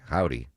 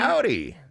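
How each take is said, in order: First: It is said in a plain, flat way. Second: It is said with big enthusiasm.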